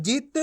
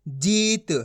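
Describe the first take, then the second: First: जित with a quick short i; brief i in जित, not stretched. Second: जीत with a long stretched ee. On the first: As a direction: cut the vowel of जित short. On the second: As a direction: draw out the vowel of जीत. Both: Shown as a demonstration. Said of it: "इतना फर्क होता है".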